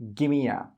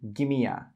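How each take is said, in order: First: The words run together as gimme a. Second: The same.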